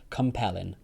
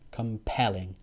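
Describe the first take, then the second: First: The stress is on the second syllable. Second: The same.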